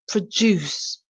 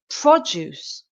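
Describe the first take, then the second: First: The stress is on the second syllable. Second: The stress is on the first syllable.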